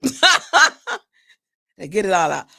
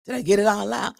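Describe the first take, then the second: First: "Did I get it all out?" said slowly and louder through laughter; laughing repeat. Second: Said in the usual way. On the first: Real, not acted. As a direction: ask it again, cracking up at yourself.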